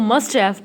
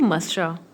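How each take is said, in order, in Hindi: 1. दोनों शब्द पूरे और अलग-अलग बोले जाते हैं। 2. 'have' छोटी 'uh' आवाज़ में सिमट जाता है। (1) "मस्ट हैव पढ़ेंगे" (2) "नेटिव स्पीकर्स की तरह बोलना चाहते हैं तो इसे बोलेंगे मस्टा"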